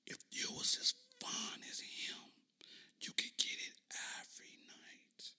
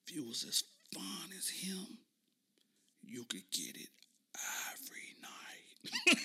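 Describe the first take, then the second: First: Unvoiced breathy whisper again. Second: Breathy unvoiced whisper. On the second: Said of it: "straight face, and says".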